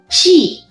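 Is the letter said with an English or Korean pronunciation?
Korean. The letter is said with Korean pronunciation. The speaker calls it wrong. "한국어로 이렇게 하시면 안 돼요"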